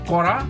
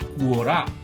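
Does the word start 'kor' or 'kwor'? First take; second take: kor; kwor. First: The word starts with a plain 'kor' sound. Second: The word starts with a 'kwor' sound. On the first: The speaker calls it right. "This word is pronounce as कोरा" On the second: The speaker calls it wrong. "And not"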